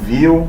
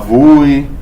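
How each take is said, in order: First: It sounds like the English word 'view'. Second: It sounds like 'voo', with a plain vowel. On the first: This is the official pronunciation. "ele fala para se pronunciar como Vue, de Vue de Model" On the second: This is how Brazilians say it. "tem gente que fala Vue, que a gente é brasileiro"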